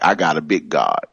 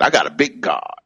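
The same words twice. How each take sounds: First: Said in the usual way. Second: Lightly imitated mentor, pitched up; Reverend Coleman. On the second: Preacher showing how a mentor used to say it, higher. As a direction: lift the pitch into her saying. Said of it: "that's how Reverend Coleman used to say it".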